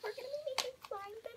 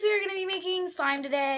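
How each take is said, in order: First: It is said quietly. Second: It is said loudly.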